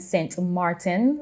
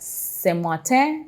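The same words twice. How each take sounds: First: The name is pronounced the Dutch way. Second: The name is pronounced the French way. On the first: It names the Dutch side of the island. "French and Dutch Saint Martin. So I will pronounce that" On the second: It names the French side of the island. "French and Dutch Saint Martin. So I will pronounce that"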